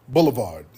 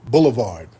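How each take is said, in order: The two takes are said the same way.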